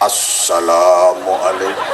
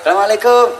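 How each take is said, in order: First: It is said in a big, deep preaching voice. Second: It is said in a plain, ordinary voice.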